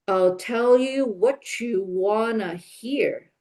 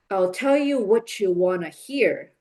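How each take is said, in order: First: It is spoken at normal speed with linked words. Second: It is spoken quickly with a strong rhythm. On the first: "more naturally with connected speech" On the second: "quicker with rhythm"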